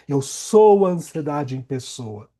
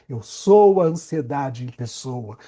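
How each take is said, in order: Both takes have the same delivery.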